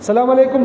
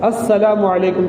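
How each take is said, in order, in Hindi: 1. अभिवादन सीधे 'salam' से शुरू होता है। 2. अभिवादन की शुरुआत में एक अतिरिक्त 'as' ध्वनि जुड़ी होती है। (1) "सलाम अलैकुम नहीं" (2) "अलिफ लाम है इसमें"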